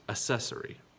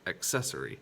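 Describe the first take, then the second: First: No k sound is heard before the s. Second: A k sound is heard before the s. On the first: The speaker calls it wrong. "not accessory" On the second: The speaker calls it right. "There is a k sound in there"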